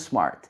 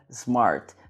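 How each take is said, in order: First: The word begins with a hissing s sound. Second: The word begins with a buzzing z sound. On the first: The speaker calls it right. "você deve colocar o som de S" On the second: The speaker calls it wrong. "de novo com a letra Z"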